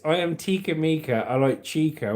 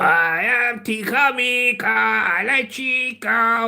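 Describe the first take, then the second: First: It is read in his plain voice. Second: It is said in a Japanese accent.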